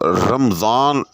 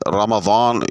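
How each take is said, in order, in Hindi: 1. बीच का व्यंजन 'z' की आवाज़ है। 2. बीच का व्यंजन 'd' की आवाज़ है।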